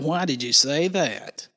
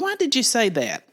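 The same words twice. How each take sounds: First: The tone is sharp and accusing. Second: The tone is gentle and curious. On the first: The speaker is challenging or blaming the listener. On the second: The speaker genuinely wants to understand the reason.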